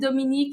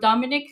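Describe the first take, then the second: First: The name is said the French way. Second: The name is said the English way. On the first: "Dominique is would be the French pronunciation" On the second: "or Dominic"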